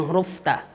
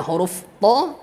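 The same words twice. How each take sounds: First: "ta" with a light, open a. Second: "ta" as a heavy Arabic tha, rounded towards "to"; heavy emphatic ta. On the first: Teacher lists tongue-tip letters for students, "ta" pronounced light with open a. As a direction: say "ta" thin and plain, never rounded to "to". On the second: Teacher lists tongue-tip letters for students, "ta" pronounced heavy as "to". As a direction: say "ta" thick and dark, like "to". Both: Shown as a demonstration. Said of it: "ujung lidah bertemu dengan pangkal gigi".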